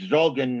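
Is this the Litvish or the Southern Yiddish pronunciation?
Litvish. It is said with the northern Litvish vowel. "a Litvish-based pronunciation where it's Zogen"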